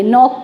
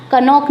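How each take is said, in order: First: नॉक said as nok with the k silent; silent k knock. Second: कनॉक said with a sounded k before n, the wrong way. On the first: Teacher to students, giving the correct silent k. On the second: Teacher to students, showing the wrong reading with k. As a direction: voice the k in कनॉक as a mistake. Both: Shown as a demonstration. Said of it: "नॉक पढ़ेंगे".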